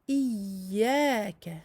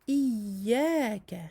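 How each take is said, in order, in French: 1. Le son du y doublé est doux et fluide. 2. Le son du y doublé est doux et fluide.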